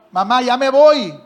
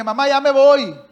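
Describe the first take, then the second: First: Loud, slow and drawn out; insistent goodbye. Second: Loud call, louder than the talk around it; calling out goodbye. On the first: Son pressing his mother for her blessing, slow loud call. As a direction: stretch it out, waiting for an answer. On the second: Son announcing he's leaving, loud call. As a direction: shout it toward the kitchen. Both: Retold or imitated.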